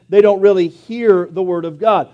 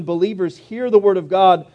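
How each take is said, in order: First: "hear" leaned on and set apart; stress on HEAR. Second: Said in the usual way. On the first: Shown as a demonstration. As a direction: punch "hear" to mean truly hearing. Contrasts hearing with really hearing.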